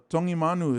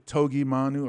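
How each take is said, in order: First: The g is said as an ng sound. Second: The g is said as a hard g sound. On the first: The speaker calls it right. "you pronounce the letter G like the N G, like song" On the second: The speaker calls it wrong. "They would say Togi Manu"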